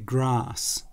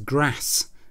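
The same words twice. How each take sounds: First: Grass is said in a posh, refined way. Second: Grass is said in a common, unrefined way. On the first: The speaker is from a well-to-do family. The speaker calls it right. "whereas I would say grass" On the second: The speaker had a less refined upbringing. The speaker calls it wrong. "he says grass"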